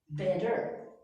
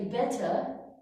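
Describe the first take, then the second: First: The t is not clearly pronounced. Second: The t is clearly pronounced. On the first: "Americans say better" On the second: "the British say better"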